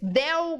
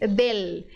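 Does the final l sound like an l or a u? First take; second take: u; l. First: The final l sounds like a u. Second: The final l is a clear l. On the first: The speaker calls it wrong. "O que que o brasileiro faz com essa letra L? Transforma em U" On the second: The speaker calls it right. "L é sempre L"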